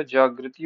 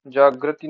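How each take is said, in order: First: Said in the usual way. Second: जागृति said 'jaag-ra-ti'; wrong vowel. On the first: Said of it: "होता है". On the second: Shown as a demonstration. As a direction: say जागृति with 'ra' in place of 'ri'. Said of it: "नहीं होता".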